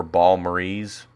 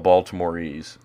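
First: Baltimoreese squashed into "Balmorese", drawn out slowly; slurred local pronunciation. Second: Said in the usual way. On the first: Shown as a demonstration. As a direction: slowly say "Baltimoreese" with the middle swallowed. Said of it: "It's called Baltimoreese". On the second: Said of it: "or Balmorese".

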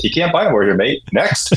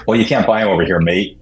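First: Higher-pitched imitated British brush-off; British accent. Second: Imitated matter-of-fact stock answer. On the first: British champion dismissing interviewers' question, in a British accent. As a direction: lightly mimic a matter-of-fact British athlete. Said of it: "hear it in a British accent". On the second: Champion brushing off interviewers' shoe question, matter-of-fact. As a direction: end the conversation with it, matter-of-fact. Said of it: "it's just very matter of fact".

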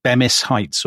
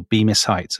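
First: "Bemis" with a short e, like BEM-iss; first syllable of "Bemis" as in "hem"; alternative pronunciation. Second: "Bemis" with a long e, like BEE-miss; first syllable of "Bemis" as in "beam"; alternative pronunciation. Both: Shown as a demonstration. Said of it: "I don't know how you pronounce it".

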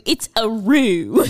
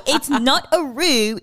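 First: "roo" drawn out slowly with a laugh; right howl. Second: Wrong howl. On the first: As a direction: stretch "a roo" slow like a real howl. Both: Shown as a demonstration. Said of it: "It's not a roo, it's a roo".

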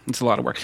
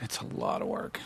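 First: Said in the usual way. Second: Hushed, emphatic whisper; very soft, voiceless echo. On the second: Real, not acted. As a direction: whisper it like a weary confession. Echoes the remark in a whisper.

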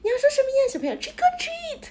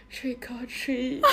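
First: Put-on much higher sing-song voice, coaxing a kid; cutesy staff voice. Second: Slow, soft vocal fry, shrinking away. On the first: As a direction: talk to a child like a theme park cast member. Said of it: "他就说". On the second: Retold or imitated. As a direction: mumble it in creaky vocal fry, embarrassed. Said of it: "你跟他用气泡音说".

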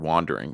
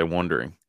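First: "wandering" with an open "ah" vowel; correct pronunciation. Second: "wandering" said like "wondering"; imitating his pronunciation. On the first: Shown as a demonstration. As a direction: say "wandering" as "WAHN-dering". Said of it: "Can you say the word". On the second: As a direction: say "wandering" with an "uh" first vowel. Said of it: "You say".

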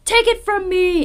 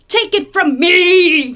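First: "Take it from me" raised, without the huge stretched "me"; milder dramatic "Take it from me"; less emphatic reading. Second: "me" hit loud and stretched long; slow, loud "Take it from me" landing hard on "me"; emphasis on ME. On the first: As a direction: say "Take it from me" high but quicker, less hammed-up. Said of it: "It's not even like". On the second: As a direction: blow up the final word "me" dramatically. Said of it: "emphasis on the me". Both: Shown as a demonstration.

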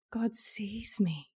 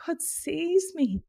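First: Slow soft whisper. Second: "God sees me" slow and higher, GOD stressed; emphatic. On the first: Whispering to the host that God sees her. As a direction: breathe it out, in awe. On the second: Declaring to the host that God sees her. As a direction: lift "God" high and land it firmly. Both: Real, not acted. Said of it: "repeats pivotal phrase".

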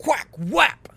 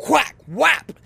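First: Loud, high imitated snap noise again; replayed whack sound. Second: Loud, high imitated snap noise; mock whack sound. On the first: Shown as a demonstration. Replaying the snap sound for viewers, loud mock snap. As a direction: give them the sound one more time, punchy and high. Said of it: "for those of you who want that sound again". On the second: Recreating the wiper snap for viewers, loud mock snap sound. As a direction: make the snapping-plastic sound loud and high.

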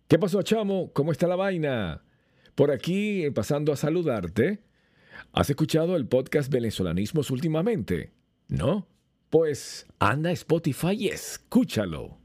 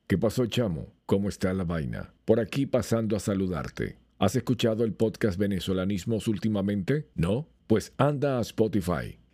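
First: Much higher, bouncy Venezuelan greeting; his own lively take. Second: Even, unhurried read with little lift; the AI clone's version, steady and level; cloned voice take. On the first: Showing how his real voice differs from the clone, lively and high. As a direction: throw it out warmly like greeting a buddy. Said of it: "Ahora lo voy a decir yo. Vean la diferencia". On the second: Speaker plays his cloned voice for comparison, even and level. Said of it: "y escuchen este". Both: Shown as a demonstration.

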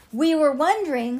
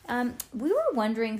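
First: Louder, higher second try; a little louder. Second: Said in the usual way. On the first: A narrator's reading. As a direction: push the words out louder. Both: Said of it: "said Ivy a little louder".

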